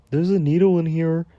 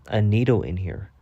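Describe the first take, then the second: First: High mimicry of the man's announcement; mocking quote. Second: Said in the usual way. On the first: Storyteller throwing a man's words back at him, mockingly high. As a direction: parrot him in a raised, mocking pitch. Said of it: "And you can talk about". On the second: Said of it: "he said".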